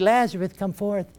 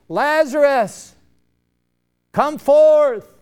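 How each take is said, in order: First: It is said quietly and calmly. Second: It is cried out in a loud voice.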